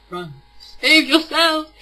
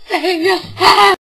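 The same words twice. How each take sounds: First: Mock warning. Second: Louder, higher, slow laughing wail; wailing mock plea. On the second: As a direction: stretch it into a comic despairing wail. Repeated mock warning, wailing.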